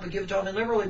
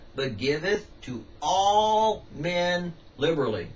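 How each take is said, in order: First: The phrase is spoken at a fast pace. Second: The phrase is spoken at a slow pace. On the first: The speaker calls it wrong. "if I said that too fast" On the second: The speaker calls it right. "let's go slower. ... See, I can go slow"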